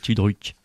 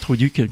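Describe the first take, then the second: First: The word begins with 'tu' and ends in 'druk'. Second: The word begins with 'tru' and ends in 'duc'. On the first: The speaker calls it right. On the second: The speaker calls it wrong.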